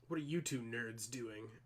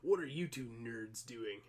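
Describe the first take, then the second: First: It is said in a normal voice. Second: It is said in a put-on character voice.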